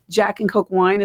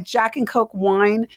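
First: Said in the usual way. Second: Questioning. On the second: Real, not acted. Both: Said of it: "Is that how it went down?".

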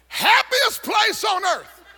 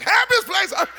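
First: Mock slogan. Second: High, sing-song mock of the ad slogan; mock cheery slogan. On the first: Mocking Disney slogan. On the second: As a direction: sell it like a cheesy ad, then sour. Mocking Disney slogan again.

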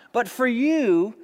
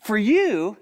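First: "you" drawn out and lifted, slower; "you" held long and high; stress on you. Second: Said in the usual way. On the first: Acted. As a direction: lean hard on "you". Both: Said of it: "not for God".

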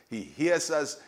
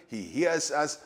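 No difference in how they are said.

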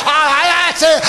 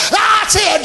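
First: Said in the usual way. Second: Cheering grandparent. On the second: Retold or imitated.

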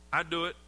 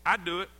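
No difference in how they are said.

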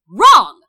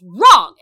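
First: A sudden loud shout of "Wrong!"; one loud barked "Wrong!"; yelled. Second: Loud shouted "Wrong!" that breaks into a new register; sharp loud "Wrong!" cutting him off; yelled. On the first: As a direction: snap "Wrong!" back with a full yell. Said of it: "And she yells at him". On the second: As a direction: yell "Wrong!" to put him in his place. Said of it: "she just yells". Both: Retold or imitated.

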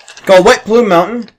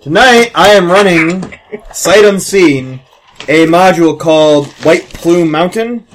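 First: Title said high in a put-on voice; dramatic announcer. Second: Slow, dramatic announcer build-up. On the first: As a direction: boom out the title. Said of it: "repeats title in put-on voice". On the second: Acted. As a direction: announce it like a movie trailer. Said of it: "dramatic slow announcer intro".

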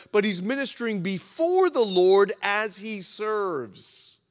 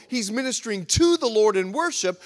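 First: "before" drawn out and weighted; slow down and lean on "before"; emphatic, stretched "before"; stress on "before". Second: "to" punched firmly; emphatic "to" before "the Lord"; stress on "to". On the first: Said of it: "now I'll emphasize the word "before". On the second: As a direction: hit "to" as the key word. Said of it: "I emphasize those two words". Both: Shown as a demonstration.

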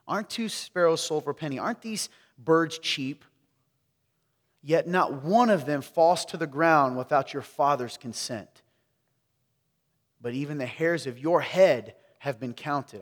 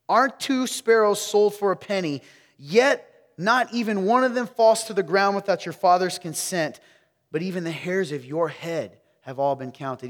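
First: Said in the usual way. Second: Higher, louder reading of the verse; loud proclamation. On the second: Shown as a demonstration. Preacher rereading the verse to wake up the room, loud. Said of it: "Here we go".

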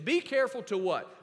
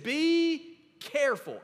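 First: Said in the usual way. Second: "Be careful" higher, slow and deliberate; stress on be careful. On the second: Shown as a demonstration. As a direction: lift and stretch "Be careful" like a warning. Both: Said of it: "Underline that word careful".

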